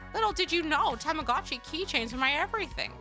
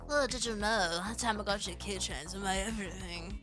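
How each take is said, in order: First: It is read in a young girl's character voice. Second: It is read in a nasal, pompous man's voice. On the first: "I could probably read it like Haruka" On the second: "basically comic book guy from The Simpsons"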